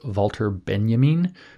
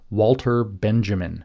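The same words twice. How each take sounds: First: Benjamin is pronounced the German way. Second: Benjamin is pronounced the English way. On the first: The speaker calls it right. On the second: The speaker calls it wrong.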